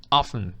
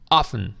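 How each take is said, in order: First: The T sound is silent. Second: The T sound is silent.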